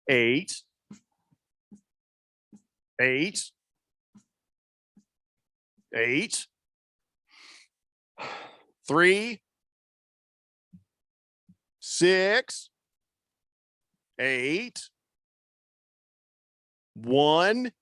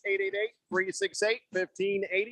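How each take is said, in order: First: The number is said slowly. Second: The number is said quickly.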